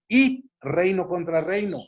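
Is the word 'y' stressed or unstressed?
stressed. The word 'y' is said with strong emphasis.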